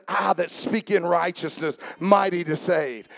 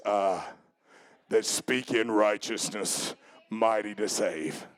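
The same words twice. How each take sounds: First: Said in the usual way. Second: Very low, slow, thundering-deep delivery; deep voice of God. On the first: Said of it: "He said". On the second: Shown as a demonstration. Preacher showing how the Lord sounded answering, deep voice of God. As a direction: sink right down into a solemn, deep voice. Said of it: "I believe it sounded like this".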